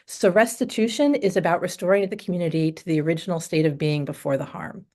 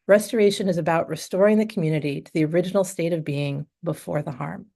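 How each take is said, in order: First: It is read through without a pause. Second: It is read with a deliberate pause.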